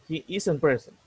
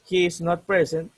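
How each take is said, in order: First: The words 'is not' are contracted to 'isn't'. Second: The words 'is not' are said in full.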